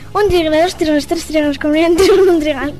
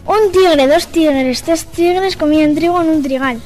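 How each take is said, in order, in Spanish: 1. Se dice a un ritmo más rápido. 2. Se dice a un ritmo más lento.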